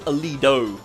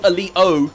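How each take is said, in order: First: The t is flapped in an American way. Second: The t is a British glottal stop.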